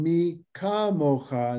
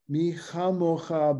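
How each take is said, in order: First: The second word begins with a hard stop consonant. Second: The second word begins with a soft, breathy consonant.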